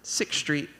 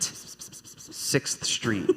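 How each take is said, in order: First: The hard 'th' cluster in 'sixth' is skipped. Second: The full 'sixth' cluster is attempted with effort. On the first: The speaker calls it right. "he just doesn't say sixth. He just skips it" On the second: The speaker calls it wrong. "Horrible. Can't do it"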